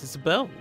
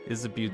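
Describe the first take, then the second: First: The name ends with a 'bo' sound. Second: The name ends with a 'boo' sound. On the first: The speaker calls it right. "it's pronounced Isabeau" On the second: The speaker calls it wrong. "That's what I thought Isabu's name was"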